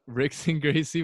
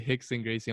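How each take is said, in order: First: The name begins with an R sound. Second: The name begins with an H sound. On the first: This is the speaker's first, untrained reading. "I first would say" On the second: This is how most people say it. "everyone would say"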